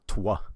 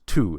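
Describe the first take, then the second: First: The word is said with a W sound. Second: The word is said without any W sound. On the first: The speaker calls it wrong. "it's not twa" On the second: The speaker calls it right. "it says two"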